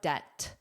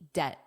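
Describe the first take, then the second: First: The final T is pushed out clearly. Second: The final T is soft and flapped. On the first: "If you push it out" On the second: "it will sound like a flap T"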